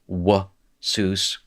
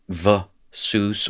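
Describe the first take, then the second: First: The word begins with a W sound. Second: The word begins with a V sound. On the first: "saying the W" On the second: "saying the V"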